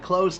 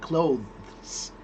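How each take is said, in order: First: It is said quickly with no 'th' sound. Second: A 'th' sound is heard before the final s. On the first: "Did you hear my T H E S in that? No, you didn't. It sounded exactly like close the door" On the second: "properly said, the word clothes has this T H E S at the end"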